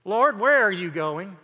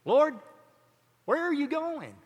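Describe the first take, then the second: First: Said in the usual way. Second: High, whining plea; whiny voice. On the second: Retold or imitated. Peter speaks up to his Lord, whiny. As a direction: put on a whiny disciple, pitched well up. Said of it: "hear it in a whiny voice".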